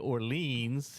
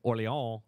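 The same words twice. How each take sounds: First: The word ends with an audible S sound. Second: The word ends without any S sound. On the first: "it's with the S" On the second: "is without the S"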